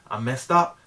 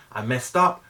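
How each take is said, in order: Both takes have the same delivery.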